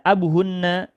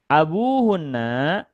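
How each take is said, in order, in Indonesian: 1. Vokal akhir dari abu itu pendek. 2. Vokal akhir dari abu itu panjang. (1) "tidak abu hunna" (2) "abu panjang pengucapannya"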